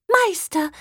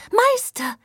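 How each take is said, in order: First: Much higher excited call; tiny doll voice. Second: Even higher excited call; tiny doll voice. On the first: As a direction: call out like a delighted little harp. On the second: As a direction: call out again, higher and more delighted. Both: Acted. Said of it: "rief die entzückende Puppenharfe".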